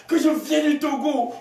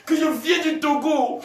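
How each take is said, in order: Both takes have the same delivery.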